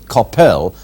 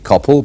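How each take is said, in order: First: The last syllable is full and rhymes with hell. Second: The last syllable is short and reduced. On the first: "as in hell" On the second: "it should not be Coppell"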